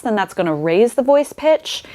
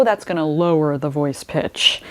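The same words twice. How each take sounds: First: Raised pitch demo. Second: Lowered pitch demo. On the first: Coach illustrating fast vocal folds, higher pitch. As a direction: pitch lifted higher on the phrase. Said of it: "if they're moving quite fast". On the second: Coach illustrating slow vocal folds, lower pitch. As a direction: pitch dropped a little lower. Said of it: "if they're moving quite slow". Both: Shown as a demonstration.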